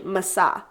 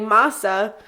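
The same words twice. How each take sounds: First: The stress is on the second syllable. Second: The stress is on the first syllable. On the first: This is the Hebrew way of saying the name. "in Hebrew, it's actually Masa" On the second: This is the English way of saying the name. "in English, I would say Masa"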